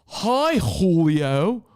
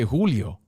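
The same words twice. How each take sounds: First: Julio called out high with big emphasis; hammed-up high punch on Julio; exaggerated emphasis. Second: Said in the usual way. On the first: Shown as a demonstration. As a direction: belt out "Hi, Julio" with showy flourish. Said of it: "Do you say". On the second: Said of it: "or do you say".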